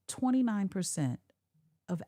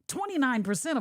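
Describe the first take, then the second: First: The delivery is lower and subdued. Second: The delivery is upbeat and excited. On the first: The speaker calls it right. "You would come down quite a bit" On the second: The speaker calls it wrong. "You wouldn't be excited about that"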